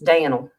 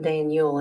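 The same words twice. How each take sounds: First: The name is said in a redneck accent. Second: The name is said in a standard accent. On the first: The speaker calls it right. "That's the way we rednecks say it" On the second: The speaker calls it wrong. "it's not Daniel"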